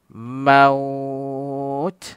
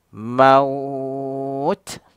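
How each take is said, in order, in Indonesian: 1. Kata ini berakhir dengan konsonan. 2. Kata ini berakhir dengan konsonan.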